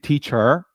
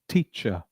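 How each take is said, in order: First: It is said in an exaggerated, put-on foreign accent. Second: It is said in a neutral standard international accent. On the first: The speaker calls it wrong. "it's fake" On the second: The speaker calls it right. "your standard accent will become"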